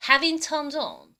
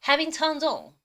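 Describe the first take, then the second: First: Very slow, deliberate English; slow repeat demo. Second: Very slow, drawn-out English; slow pronunciation demo. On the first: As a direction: say it slowly one more time. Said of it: "한 번 더". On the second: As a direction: model it slowly for students. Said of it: "오 번 발음해 보겠습니다". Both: Shown as a demonstration.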